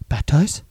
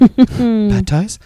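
First: Coy little voice. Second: Put-on high, loud, pleading toddler voice; coy little voice. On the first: Retold or imitated. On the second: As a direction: beg like a sweet little kid. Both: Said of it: "In his little coy voice".

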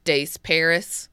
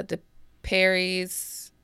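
First: "Des Paris" said as dess PAIR-iss; pronounced Des Paris. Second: "De Perry's" said as duh PAIR-eez; pronounced De Perry's. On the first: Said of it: "as other people may probably say". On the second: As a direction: say "De Perry's" with a silent S in De, ending in -eez. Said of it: "other people may probably say". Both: Shown as a demonstration.

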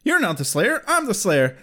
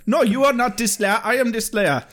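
First: Lightly acted indignant challenge in own accent; slightly higher, challenging the rival; mild mock face-off without an accent; Buffy. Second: Mock Jamaican accent, higher pitched; hammed-up Hollywood Jamaican accent; Kendra. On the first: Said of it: "Buffy says". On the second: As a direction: answer back in a badly faked Jamaican accent. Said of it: "that might be a better accent".

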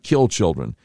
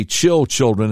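First: Put-on "kill children" with a hard K starting the first word; K instead of CH. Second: Put-on "chill children" with CH starting both words; stumbled first syllable. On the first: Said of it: "instead of kill children". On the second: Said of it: "stumble over the first syllable". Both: Shown as a demonstration.

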